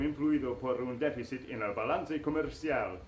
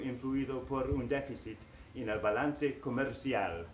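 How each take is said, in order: First: It is read in a radio announcer voice. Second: It is read in a plain, ordinary voice.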